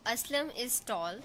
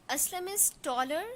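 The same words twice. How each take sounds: First: Said in the usual way. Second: "taller" lifted higher and a bit faster; teacher pushing "taller" up to contrast with "tall"; stress on taller. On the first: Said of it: "In first example, I said". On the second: Shown as a demonstration. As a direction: lean up on "taller" to show the bigger level. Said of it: "But in second example, I said".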